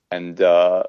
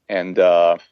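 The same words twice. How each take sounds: The two takes are said the same way.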